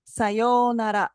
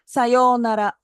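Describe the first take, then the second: First: Sayonara said slowly, the middle o drawn out; slow Japanese sayonara. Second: Sayonara with a clear long o in the middle; Japanese sayonara. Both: Shown as a demonstration. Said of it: "there is a long O sound in the middle".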